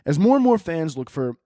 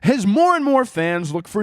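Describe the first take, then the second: First: It is read in a normal speaking voice. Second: It is read in a put-on announcer voice.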